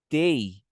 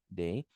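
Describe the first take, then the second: First: The word begins with a t sound. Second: The word begins with a d sound. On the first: Listeners will not understand it. "tei com som de T, de tatu" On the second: Listeners will still understand it. "se você falar day, eles vão até te entender"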